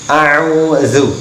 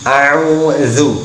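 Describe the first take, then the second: The two takes are said the same way.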